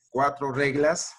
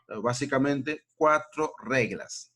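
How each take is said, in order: First: "cuatro reglas" said slowly, each word weighted; slow emphasis. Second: Said in the usual way. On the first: Shown as a demonstration. Teacher to class, slowly stressing "cuatro reglas".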